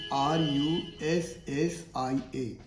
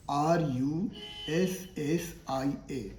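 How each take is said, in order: Both takes have the same delivery.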